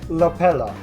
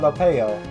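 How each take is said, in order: First: The middle L sound is clearly pronounced. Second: The middle L sound is left out. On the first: The speaker calls it right. "You pronounce it right when you enunciate the L" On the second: The speaker calls it wrong. "or is it Lopelo or Lopeo?"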